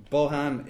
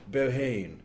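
First: Bohan ending in a short "Han"; correct pronunciation. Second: Bohane with a long final "ane", as the publishers say it; wrong pronunciation. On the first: Shown as a demonstration. Author shows the listeners how Bohan is really said. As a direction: say Bohan, clipping the last syllable to "han". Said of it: "getting it right, the Han bit". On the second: Retold or imitated. Author mimics the publishers' Bohane mispronunciation. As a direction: say Bohane rhyming with "lane". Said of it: "correcting them ... about the pronunciation".

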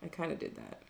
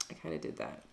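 First: Said in the usual way. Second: Breathy whispered aside, much softer. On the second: Real, not acted. Admitting to her co-host she muscled in, in a whisper. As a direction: drop to a sheepish whisper.

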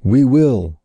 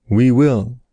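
First: Eager first promise of We will. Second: Echoed We will, eager, slightly changed voice; eager repeated answer we will. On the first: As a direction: answer keenly, voice lifted. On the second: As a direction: repeat the promise eagerly again. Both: A narrator's reading. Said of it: "answered the more eagerly".

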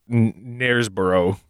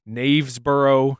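First: Knaresborough with r, stumbling on the N; Knaresborough guess. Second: Knavesborough with a v, said slowly; Knavesborough guess. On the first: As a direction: try Knaresborough with r. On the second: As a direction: sound out Knavesborough carefully. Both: Shown as a demonstration. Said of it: "it could either be".

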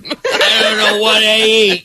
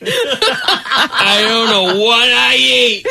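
First: Laughing. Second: Slow drawn-out words through laughter; laughing. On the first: Laughing disbelief at plant eater. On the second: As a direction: stretch it out while cracking up. Repeated, slower, through laughter. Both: Real, not acted.

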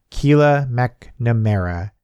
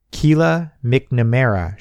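First: Slow, fond recognition of the name; warmly. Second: Read out. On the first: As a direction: savour the name like an old friend. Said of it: "Grandma said warmly". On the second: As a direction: slowly read the name aloud. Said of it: "she read out". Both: Acted.

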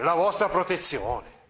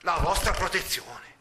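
First: "La vostra protezione" with a slow weight on "vostra"; teacher voicing the friar's scornful echo, "vostra" stressed; exclaimed. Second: Scornful exclamation. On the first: Friar throwing the lord's words back, "vostra" stressed. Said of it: "esclamò". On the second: Acted. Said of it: "esclamò dando indietro di due passi".

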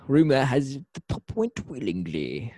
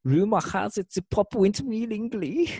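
First: Put-on lightly done odd Germ Russian accent; a hint of the weird Germ Russian henchman; odd accent imitation. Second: Much higher, put-on Germ Russian accent; odd accent imitation. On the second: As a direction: go big on the weird Germ Russian henchman. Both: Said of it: "I don't know what kind of accent that was supposed to be".

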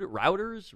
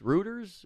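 First: ROUTERS said as "ROW-ters", first vowel as in "out"; "Routers" rhyming with "doubters"; unsure pronunciation. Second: REUTERS said as "ROO-ters", first vowel as in "food"; "Reuters" rhyming with "looters"; unsure pronunciation. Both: Real, not acted. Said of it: "What's that news affiliate".

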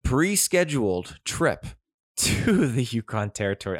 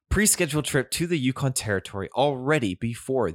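First: "pre-scheduled" leaned on, breaking into a laugh; laughing emphasis. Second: "Pre-scheduled" hit firmly after a sigh, composed now; stress on pre-scheduled. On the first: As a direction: stress "pre-scheduled" and laugh mid-phrase. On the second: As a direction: punch "Pre-scheduled" then carry on evenly. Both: Real, not acted. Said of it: "I can't emphasize this word enough".

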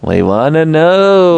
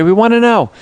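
First: Slow, stretched, hammed-up plea; drawn-out repeat. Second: Higher, louder, insistent ask; eager plea. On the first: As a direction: stretch it out for effect. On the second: Acted. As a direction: push the invite, eagerly. Podcast host inviting email.

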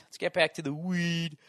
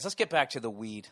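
First: "weed" stretched long and sung higher. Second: Said in the usual way. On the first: Pretend. Host returning to his topic, playful long "weed". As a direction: repeat it playfully, lingering on "weed".

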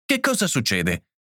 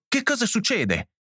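First: Restrained worried question, only slightly raised; anxious. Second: Anxious insistence. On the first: John arriving to find his wife upset, anxious. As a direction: ask with a touch of alarm. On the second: John demanding to know what is happening, anxious insistence. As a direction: pitch leaping high, urgent question. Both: A narrator's reading. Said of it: "pieno di ansia".

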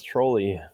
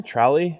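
First: Trolli said as TROH-lee; TROH-lee pronunciation. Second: Trolli said as TRAH-lee; TRAH-lee pronunciation. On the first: Offering the version they always assumed, Trolli as TROH-lee. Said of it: "I always thought it was". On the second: Querying a co-host's way of saying the brand, Trolli as TRAH-lee. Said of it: "Is that how you pronounce". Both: Shown as a demonstration.

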